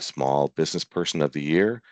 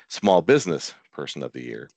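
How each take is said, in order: First: Small sounds grouped with person, not with business. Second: Small sounds grouped with business, not with person. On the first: The person being honored is small. The speaker calls it wrong. "I need to put that emphasis a little different" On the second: The person runs a small business. The speaker calls it right. "I need to put that emphasis a little different"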